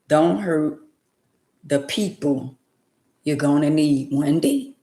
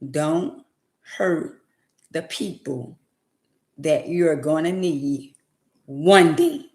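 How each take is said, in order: First: It is said at a normal, quicker pace. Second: It is said slowly and deliberately.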